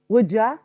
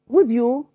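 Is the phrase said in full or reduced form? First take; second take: reduced; full. First: The last word is reduced to a short ya. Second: The last word is said fully as you.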